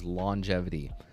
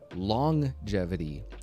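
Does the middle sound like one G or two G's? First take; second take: one G; two G's. First: It has a single g sound in the middle. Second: It sounds as if the g is doubled. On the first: The speaker calls it right. "One is actually correct" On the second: The speaker calls it wrong. "is not correct because there's only one G"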